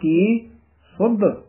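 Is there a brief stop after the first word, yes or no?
yes. There is a brief stop after the first word. The speaker calls it right. "ਇਹ ਵੀ ਕੀ ਪਦ ਤੇ ਥਮਕ ਜੀ ਲਾ ਕੇ ਬੋਲਣਾ"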